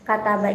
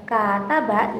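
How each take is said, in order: First: Said in the usual way. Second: "kata ba" with first syllable held; long first vowel. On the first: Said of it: "itu memiliki durasi pendek". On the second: Shown as a demonstration. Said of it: "itu memiliki durasi yang panjang".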